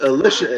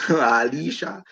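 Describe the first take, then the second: First: Alicia said "uh-LISH-uh"; short-i pronunciation. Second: Slow, drawn-out Alicia, "ah-LEE-shah"; spelling pronunciation. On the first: Co-host reading out the wrestler's name, Alicia as "uh-LISH-uh". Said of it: "Why does she pronounce it". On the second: Puzzling over the wrestler's spelling, Alicia drawn out as "ah-LEE-shah". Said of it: "Her name is spelled Alicia". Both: Shown as a demonstration.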